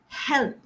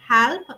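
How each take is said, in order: First: The vowel is a narrow 'eh' sound. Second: The vowel is a broad 'a' sound. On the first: The speaker calls it right. "We need to narrow it down to" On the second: The speaker calls it wrong. "So it is coming out as help and blessing"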